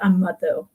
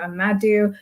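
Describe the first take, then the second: First: The name is said the global south way. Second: The name is said the Euro-American way.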